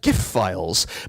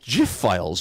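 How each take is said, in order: First: The word starts with a hard G sound. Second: The word starts with a soft G sound. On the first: "hard G" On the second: "with a soft G"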